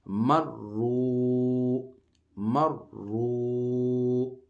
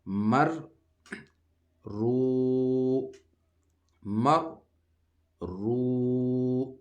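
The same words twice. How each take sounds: First: مر رو drawn out very slowly as one word, ra doubled; teacher chanting the joined word slowly; joined recitation. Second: مر then رو, each syllable said apart, loud and high; teacher reciting مر رو syllable by syllable; broken recitation. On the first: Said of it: "جوڑ اس کا کریں گے". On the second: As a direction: split مر رو into two slow separate syllables. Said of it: "ہم اس کی practice کر رہے ہیں". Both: Shown as a demonstration.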